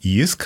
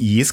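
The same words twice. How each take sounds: First: The vowel is a rounded 'ü' sound. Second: The vowel is a plain 'i' sound. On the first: The speaker calls it right. "hanem JISK, mert az Y azt ő-nek ejtik" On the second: The speaker calls it wrong. "azért nem JISK"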